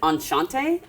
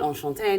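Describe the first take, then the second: First: It is read with an English-style pronunciation. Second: It is said with a French-style pronunciation. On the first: The speaker calls it wrong. "If you read, it would be like enchanté" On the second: The speaker calls it right. "but enchanté, no e"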